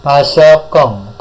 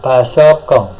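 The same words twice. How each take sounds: First: Pasokong spoken slowly, syllable by syllable; slow model word. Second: Said in the usual way. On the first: Shown as a demonstration. Teacher modelling a new word for students, slowly. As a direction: say Pasokong slowly so the class can copy it. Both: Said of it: "saya ucapkan satu kali diikuti".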